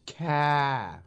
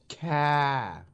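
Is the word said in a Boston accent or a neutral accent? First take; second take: Boston; Boston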